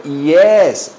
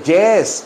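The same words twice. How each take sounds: First: "yes" with a long ee-glide onset; correct "yes". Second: "yes" with a hard j-like Spanish onset; "yes" said almost like "jes"; wrong "yes". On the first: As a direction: stretch "yes" slowly as "ee-es". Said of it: "se dice yes". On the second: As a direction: harden the y at the start of "yes". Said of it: "Que no se dice yes". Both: Shown as a demonstration.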